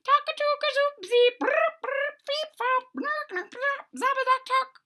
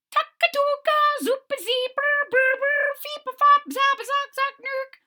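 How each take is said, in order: First: Very high chirping nonsense bird calls again squeaked; high piping bird chatter; strange bird calls. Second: Very high chirping nonsense bird calls; piping high bird chatter; strange bird calls. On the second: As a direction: squeak it out like an odd mountain bird. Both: Acted. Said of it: "I was making the bird sounds".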